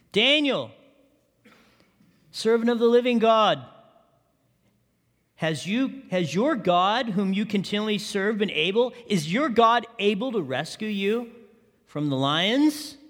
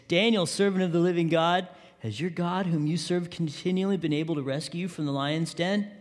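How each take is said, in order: First: Pleading, rising call to a friend in the pit; a mildly anguished king calling down into the den. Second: Understated worried king calling out; anguished, read softly. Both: A narrator's reading. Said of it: "he called to Daniel in an anguished voice".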